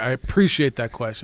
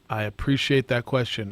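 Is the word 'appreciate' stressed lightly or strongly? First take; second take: strongly; lightly. First: The word appreciate gets extra strong stress. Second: The word appreciate gets only ordinary stress.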